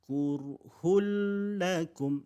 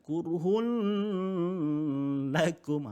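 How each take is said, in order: First: The n merges into the l without nasal hum. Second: The n is held with a nasal hum. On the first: The speaker calls it right. "dimasukkan dalam bunyi, dalam huruf lam. Tapi tidak perlu didengungkan" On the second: The speaker calls it wrong. "jadi bacaan itu salah"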